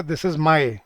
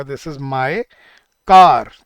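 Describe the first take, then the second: First: Said in the usual way. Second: "car" punched much louder after a pause; completed phrase with "car" hit loud; stress on car. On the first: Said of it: "मैं कभी भी ये नहीं बोल सकता". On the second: Shown as a demonstration. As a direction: land hard on "car" to finish the phrase. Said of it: "हमें क्या बोलना पड़ेगा?".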